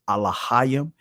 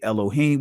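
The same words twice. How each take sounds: First: Said in an ancient Hebrew pronunciation. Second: Said in a common English-speaker pronunciation. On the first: "in the ancient Hebrew" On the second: "some of you guys would say"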